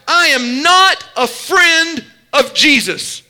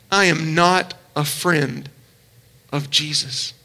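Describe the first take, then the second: First: Slow, insistent, firmly stressed NOT; emphatic denial. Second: Much softer, lower and slow, the words fading; hushed, broken echo. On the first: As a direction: hammer out the denial. First take of the denial. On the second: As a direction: let the denial sink into near silence. Jesus hears the denial. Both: Retold or imitated.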